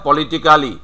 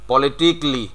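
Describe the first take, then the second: First: Politically with the full -ক্যালি ending; syllable-by-syllable. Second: Politically clipped to politikli; correct pronunciation. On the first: Teacher shows the wrong way, politically with the full -kali ending. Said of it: "কিন্তু আমাদেরকে politically". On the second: Teacher gives the clipped politikli as the right form. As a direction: says politically as politikli, dropping the -ka. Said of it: "not politically". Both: Shown as a demonstration.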